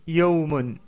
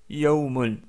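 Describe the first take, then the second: Both takes have the same delivery.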